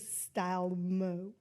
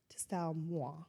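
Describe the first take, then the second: First: The last word is said in a plain way. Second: The last word is said in a fancy way. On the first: "depending on how you want to pronounce it" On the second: "The fancy way"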